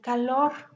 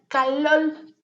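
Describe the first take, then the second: First: The word ends with an R sound. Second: The word ends with an L sound. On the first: "en lugar de calor" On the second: "ellos dicen calol"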